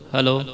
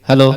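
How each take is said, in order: First: The echo repeats many times. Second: The echo repeats only a few times.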